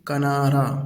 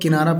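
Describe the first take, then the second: First: The first vowel is an a sound. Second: The first vowel is an i sound. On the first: The speaker calls it right. "असल लफ्ज़ है उर्दू का तलफ़्फ़ुज़ कनारा" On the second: The speaker calls it wrong. "इसको सब किनारा पढ़ते हैं, लेकिन ये लफ्ज़ किनारा नहीं है"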